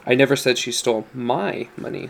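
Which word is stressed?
my. The stress is on "my".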